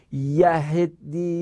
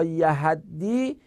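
First: یهدی stretched, short "e" before the doubled d; slow, careful "yaheddi" for یهدی; yahiddi with e-vowel. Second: یهدی stretched, open "a" before the doubled d; slow, careful "yahaddi" for یهدی; yahaddi with a-vowel. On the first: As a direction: say یهدی slowly as "ya-HED-di", e after the h. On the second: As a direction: say یهدی slowly as "ya-HAD-di", a after the h. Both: Shown as a demonstration. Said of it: "یهدی یا یهدی".

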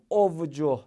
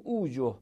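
First: "اوجه" said "ov-joh", vav as v; wrong reading. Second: "اوجه" said "oo-joh", no v; correct long-vowel reading. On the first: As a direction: say "اوجه" with a v before the j, as the faulty form. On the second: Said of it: "باید بخونیم اوجه". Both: Shown as a demonstration.

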